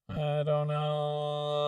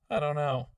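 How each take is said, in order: First: Slow auto-tuned phrase; snappy auto-tune. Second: Said in the usual way. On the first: Shown as a demonstration. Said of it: "super snappy effect".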